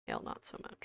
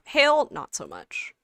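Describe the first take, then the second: First: Whispered, barely audible repeat; muttered echo. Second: Said in the usual way. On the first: Real, not acted. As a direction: say it again under your breath. Repeats own remark under breath.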